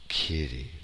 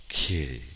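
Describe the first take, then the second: Both takes have the same delivery.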